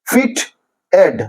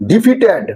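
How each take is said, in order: First: defeated broken slowly into three syllables. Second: Said in the usual way. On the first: Shown as a demonstration. Teacher showing how it divides, defeated in slow separate syllables. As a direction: say defeated as ডি, ফিট, এড, with gaps. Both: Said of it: "syllabic division করা হয়েছে".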